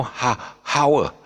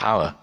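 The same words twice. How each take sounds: First: HOUR said "how-er", loud breathed H, higher pitch; mispronounced with sounded H. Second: Said in the usual way. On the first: Shown as a demonstration. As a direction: hit the H in hour, high and loud. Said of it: "we don't pronounce the, uh, uh, aspirate". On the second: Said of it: "It's just hour".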